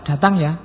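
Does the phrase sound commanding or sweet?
commanding. It is said in a firm, ordering tone. It is an order to come. "kalau pakai kata perintah ... itu merintah"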